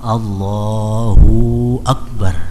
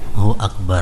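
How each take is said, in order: First: The 'hu' vowel is drawn out long. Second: The 'hu' is said with a short vowel. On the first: The speaker calls it wrong. "hu-nya kepanjangan" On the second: The speaker calls it right. "Mestinya Allahu Allahu Akbar. Berisi hu-nya itu"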